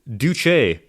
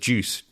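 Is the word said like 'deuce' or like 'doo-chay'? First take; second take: doo-chay; deuce. First: It is said as two syllables, like 'doo-chay'. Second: It is said as one syllable, like 'deuce'. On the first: The speaker calls it right. "It is correctly pronounced Duce" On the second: The speaker calls it wrong. "pronounce it as juice, D E U C E. Which, unless you are the baby from Family Guy, is incorrect"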